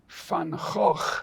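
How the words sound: It is said with a Dutch pronunciation.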